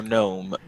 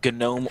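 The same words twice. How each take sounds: First: Gnome said NOME; one-syllable "Gnome", starting on N; silent-G pronunciation. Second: Gnome said guh-NOME; two-syllable "Gnome", guh-nome; hard-G pronunciation. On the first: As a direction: drop the G in Gnome. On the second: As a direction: sound the G in Gnome as its own syllable. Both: Shown as a demonstration. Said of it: "most confusing names".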